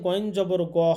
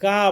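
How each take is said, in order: First: The vowel after the g sounds like 'o'. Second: The vowel after the g sounds like 'a'. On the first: The speaker calls it right. "গয়েন জবর গ হবে" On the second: The speaker calls it wrong. "গা বলা যাবে না"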